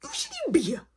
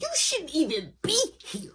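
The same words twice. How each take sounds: First: "You shouldn't even be here" said much higher; more heated. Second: Heated. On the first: Scolding his friend at the door, the repeat pitched much higher. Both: Retold or imitated. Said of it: "I'm still heated".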